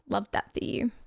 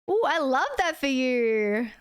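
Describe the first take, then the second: First: It is said sarcastically. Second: It is said sincerely, without sarcasm.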